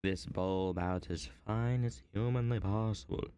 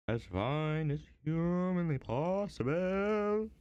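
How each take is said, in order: First: Said in the usual way. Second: Higher, slow, drawn-out repeat; slow theatrical echo of the last line; dramatic repeat. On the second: Shown as a demonstration. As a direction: stretch it out in a mock-serious voice. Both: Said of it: "I might have to be a little quiet".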